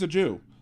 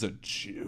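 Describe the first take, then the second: First: It is said in a plain, neutral tone. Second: It is said in a sneering, contemptuous tone. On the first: It is a simple statement of fact. The speaker calls it right. "okay, fine" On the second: The word is being used like a slur. The speaker calls it wrong. "that's that's bad"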